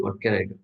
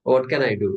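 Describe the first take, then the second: First: A soft, lower musing to oneself; quiet. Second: Said in the usual way. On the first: Pretend. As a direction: wonder it quietly, half to yourself. Imagined newcomer asks himself.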